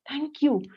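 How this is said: It is said warmly and sincerely, with feeling. The thanks is sincerely meant. "it comes from your heart"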